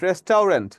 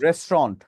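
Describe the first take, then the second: First: The middle is said as a spelled-out 'tau' sound. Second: The middle is said as a short 'tu' sound. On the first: This is how people here often say it. The speaker calls it wrong. "রেস্টাউরেন্ট যে আমরা বলি সেটাও কিন্তু না" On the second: This is how English people say it. The speaker calls it right. "এটাকে ইংরেজরা কি বলে জানেন?"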